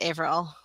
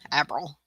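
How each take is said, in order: First: The first vowel is a long A sound. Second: The first vowel is a short A sound. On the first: The speaker calls it right. "You pronounce it April, like um like not average. So it's a it's a long A" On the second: The speaker calls it wrong. "People people miss say my last name a lot that way"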